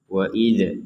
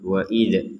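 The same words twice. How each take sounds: First: The final dz is released with a bounce. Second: The final dz is released with a bounce.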